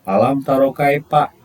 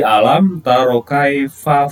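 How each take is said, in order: First: Kaifa is said with a p sound, no airflow. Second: Kaifa is said with an f sound, air escaping. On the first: The speaker calls it wrong. "itu kurang kurang benar ya" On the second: The speaker calls it right. "kalau fa ada sedikit udara yang keluar dari mulut kita"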